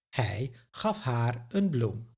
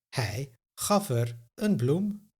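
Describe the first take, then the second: First: The pronoun is said in full with a long vowel. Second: The pronoun is reduced to a short schwa form.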